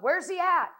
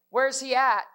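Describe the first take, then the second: First: It is asked in an earnest, urgent way. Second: It is asked in a casual, offhand way.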